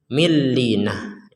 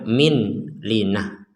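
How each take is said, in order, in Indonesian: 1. Bunyi n menyatu sepenuhnya menjadi l yang ganda. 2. Bunyi n dibaca terpisah sebelum l. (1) "kita harus memasukkannya millinah" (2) "kita tidak bisa membacanya min linah"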